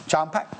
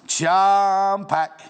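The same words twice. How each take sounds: First: Said in the usual way. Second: "Charm" held long and louder, then a short "pack"; "Charm" lingered on loudly before "pack"; drawn-out CHARM. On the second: Real, not acted. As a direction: stretch out the word "Charm" with relish. Repeats product name, showing it off.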